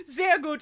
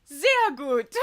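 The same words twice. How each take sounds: First: "Sehr gut" laughed out much higher; laughing repeat. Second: Put-on a crisp, kind "Sehr gut" in a German accent, said higher and louder; imitating the German clerk. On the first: Real, not acted. The vlogger laughing while repeating the clerk's "Sehr gut". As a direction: say "Sehr gut" again through real laughter. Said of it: "and I laughed". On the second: The cashier praising the partner's German, a German accented "Sehr gut". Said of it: "she goes".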